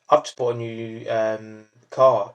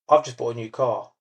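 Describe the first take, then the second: First: It is said with an um hesitation. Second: It is said smoothly without filler sounds.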